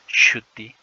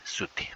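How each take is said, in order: First: The word begins with a hushing sh sound. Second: The word begins with a hissing s sound. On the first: This is the older or central dialect form. "ese es el sonido palatal S H" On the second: This is the southern dialect form. "En el quechua sureño ya se ha convertido con el sonido S"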